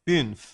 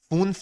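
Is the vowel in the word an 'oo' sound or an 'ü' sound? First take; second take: ü; oo. First: The vowel is a front rounded 'ü' sound. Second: The vowel is a back rounded 'oo' sound. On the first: The speaker calls it right. "اوملات یه او میاره" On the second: The speaker calls it wrong. "فونف نه"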